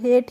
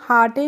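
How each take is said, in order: First: It is said as one syllable, rhyming with date. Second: It is read letter by letter as two syllables. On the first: The speaker calls it right. "हेट पढ़ते हैं" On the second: The speaker calls it wrong. "हम हाटे नहीं पढ़ते हैं"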